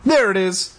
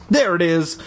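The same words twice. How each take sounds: First: High thrilled shout; excited shout. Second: High happy cry; high delighted exclamation. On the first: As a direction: shout it out in discovery. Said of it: "Daniel excitedly shouted". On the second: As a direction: cry it out with joy. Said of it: "my brother cried happily". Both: Acted.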